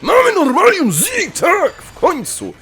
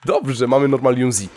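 First: High, loud victory yell; elated high-pitched celebration; triumphant cheer. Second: Said in the usual way. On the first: Real, not acted. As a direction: shout it out, overjoyed at last. Celebrates long-awaited item.

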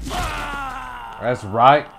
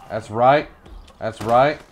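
First: High shouted triumph; victory shout. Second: Loud gloating, less high; hyped gloat. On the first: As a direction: scream it in triumph. Victory shout after kill. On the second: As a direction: gloat it with energy. Repeats victory line calmer. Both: Real, not acted.

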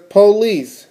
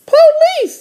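First: Said in the usual way. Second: Very high little-sister voice. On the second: Acted. Little sister reading a sign to her brother, very high voice. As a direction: pitch it way up like a cartoon kid sister. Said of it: "said D W".

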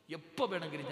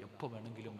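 First: എപ്പോ വേണമെങ്കിലും pitched up high and loud; emphatic repetition. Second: Said in the usual way. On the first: Real, not acted. Preacher warning death comes any time, emphatic on എപ്പോ വേണമെങ്കിലും. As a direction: drive home എപ്പോ വേണമെങ്കിലും with a raised voice.

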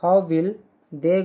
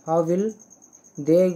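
The two takes are said the same way.

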